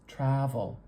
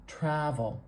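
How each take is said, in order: Both takes have the same delivery.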